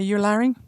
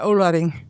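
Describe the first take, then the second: First: The name is said the English way. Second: The name is said the Aboriginal way. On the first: This is how English speakers say the name. "Do you say Yularing?" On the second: This is how the speaker's own people say the name. "We say Ularing"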